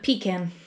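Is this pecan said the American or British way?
British. It is said with the British pronunciation. "You just kind of said it our way"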